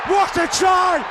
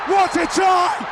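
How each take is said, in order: Both takes have the same delivery.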